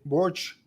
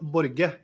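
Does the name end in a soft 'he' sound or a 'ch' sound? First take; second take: 'ch' sound; soft 'he'. First: The name ends with a 'ch' sound. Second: The name is said with a Spanish pronunciation. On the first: This is how many Americans say it. "I heard a lot of Americans they say Borch" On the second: This is how the name's owner says it. "I say [name]"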